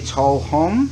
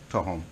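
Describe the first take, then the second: First: The L is kept but kw is dropped. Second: Both the L and kw sounds are dropped. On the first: "Take out the Q and the U" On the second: "the local people would even take the L out"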